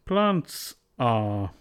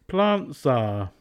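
First: A full T is said before the S. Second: The T becomes a glottal stop, Z links forward.

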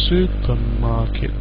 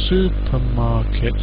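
The two takes are said the same way.

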